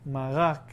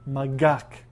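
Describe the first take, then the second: First: The middle consonant is a throaty r sound. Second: The middle consonant is a hard g sound.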